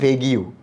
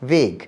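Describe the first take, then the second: First: The word ends with an extra 'gyu' syllable. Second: The word is said as one syllable. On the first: The speaker calls it wrong. "আমি উচ্চারণ করেছিলাম ভেগিউ" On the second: The speaker calls it right. "এখন তো খুব smartly ইংরেজিতে বলি ভেগ কথাটা"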